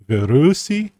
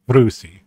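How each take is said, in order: First: A vowel separates the v and the r. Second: The v and the r are said together. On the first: "you can say Virusi" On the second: "you can abbreviate it to Vrusi"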